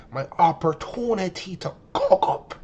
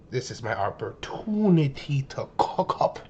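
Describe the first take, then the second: First: Slow, drawn-out hype about cooking up; hyped self-talk. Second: Said in the usual way. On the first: Retold or imitated. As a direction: savour it like a chance you've waited for. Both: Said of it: "I'm like".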